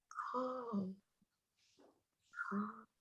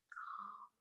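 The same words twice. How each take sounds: First: Hushed and soothing, almost breathed; softly settling a nervous dog; soothing calm. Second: The last calm fading to almost nothing. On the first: Chaplain soothing the therapy dog, hushed. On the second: Chaplain's final soothing word to the dog, barely audible. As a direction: let the word die away gently. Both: Retold or imitated.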